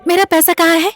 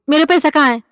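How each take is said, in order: First: It is said in a sweet, loving tone. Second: It is said in a harsh, demanding tone.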